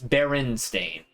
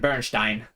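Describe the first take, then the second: First: The name is pronounced the plain English way. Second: The name is pronounced the Germanic way. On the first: "it was Berenstain" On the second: "because you know it's a Germanic pronunciation"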